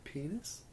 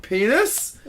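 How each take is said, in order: First: Very soft, rising question; tentative quiet call. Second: High, sharply rising question; escalated call. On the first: Girl calls from across the bedroom at night, very quiet. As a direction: float it out barely audibly, pitch lifting. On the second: Girl answers as the game gets louder, high rising call. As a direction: send it right up at the end. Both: Retold or imitated. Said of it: "it starts getting louder".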